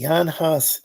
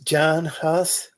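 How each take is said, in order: First: The name begins with a Y sound. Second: The name begins with an English J sound.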